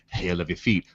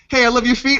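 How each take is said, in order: First: It is said in a straight, earnest tone. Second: It is said playfully, followed by laughter. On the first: It is meant sincerely. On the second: It is only meant as a joke.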